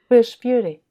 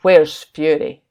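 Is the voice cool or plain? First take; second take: plain; cool. First: It is said in a plain, less cool voice. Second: It is said in a cool Captain Marvel voice.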